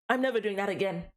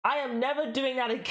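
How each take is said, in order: First: Said in the usual way. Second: Emphatic AM, breaking into high laughter; laughing vow. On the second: Real, not acted. Streamer embarrassed after the accent attempt, real laughing vow. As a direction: swear it off, then crack up.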